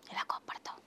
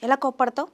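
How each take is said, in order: First: A soft playful whisper. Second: Said in the usual way. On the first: Shown as a demonstration. Father whispers to the little girl how she gets angry. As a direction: breathe the question with no voice.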